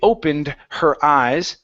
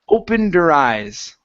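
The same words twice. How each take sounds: First: The H sound in 'her' is clearly pronounced. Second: The H in 'her' is dropped and linked. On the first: The speaker calls it wrong. "we don't say opened her eyes" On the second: The speaker calls it right. "we say opened her. Opened her eyes"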